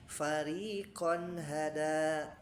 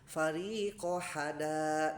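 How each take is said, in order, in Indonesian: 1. Bunyi n terdengar jelas sebelum hada. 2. Bunyi n dihilangkan sebelum hada. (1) "Harusnya kan" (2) "ya dibaca idgham"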